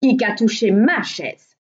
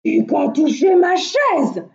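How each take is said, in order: First: Loud storybook middle-bear voice; Mehdi Ours. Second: Big bear's raised, loud outcry; loud, higher-pitched big-bear exclamation; Grand Ours. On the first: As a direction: middle bear's loud exclamation. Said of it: "s'écria à son tour Mehdi Ours". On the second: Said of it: "s'excria Grand Ours". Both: A narrator's reading.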